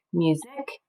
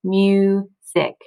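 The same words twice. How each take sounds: First: Said in the usual way. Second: "music" as "myu", pause, "sick"; "music" broken into two separate beats; split into syllables. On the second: Shown as a demonstration. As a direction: sound out "music" with a long u. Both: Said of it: "it's gonna say its long sound".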